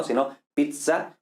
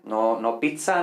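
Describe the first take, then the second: First: "pizza" with a voiced dz, slowly; slow demo of "pizza" with a dz sound; Latin z in pizza. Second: Pizza with a ts sound, as in Italian; the "pizza" we should not use, ts sound; wrong Italian-style pizza. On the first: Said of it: "así se pronunciaría la Z en latín". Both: Shown as a demonstration.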